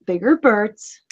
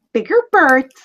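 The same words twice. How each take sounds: First: Mildly mocking repeat at ordinary pitch; mocking echo. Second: Higher-pitched mocking echo; mock the bird with a pitched-up parroting; exaggerated mockery. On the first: Player echoing the raven's words back, mildly mocking. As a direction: echo it back with understated mockery. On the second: Player taunting the raven a second time, exaggerated mockery. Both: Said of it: "Are you mocking me?".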